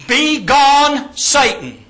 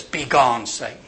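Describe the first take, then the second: First: Loud, high, drawn-out command; booming, punched dismissal; emphatic rebuke. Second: Low, gentle dismissal; loving rebuke. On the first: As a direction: banish the enemy with full force. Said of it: "it's more emphatic". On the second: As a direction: say it tenderly, dropping away at the end. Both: Acted.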